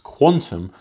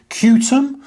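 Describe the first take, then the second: First: The name is said like the word quantum. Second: The name is said as letters: cue-tum. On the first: The speaker calls it right. "It's pronounced Quantum" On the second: The speaker calls it wrong. "I pronounced that wrong"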